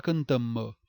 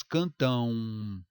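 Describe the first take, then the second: First: CANTAM ending in a sounded consonant m; wrong pronounced M. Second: CANTÃO ending in a long nasal ãun glide; usual pronunciation. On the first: Teacher rejecting it, CANTAM with hard final m. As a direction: shut the lips and release the m of cantam. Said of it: "Ninguém fala cantam". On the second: Teacher showing real speech, CANTÃO as drawn-out cantãun. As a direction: stretch the last syllable of cantão, lips never closing. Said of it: "nós temos cantão". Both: Shown as a demonstration.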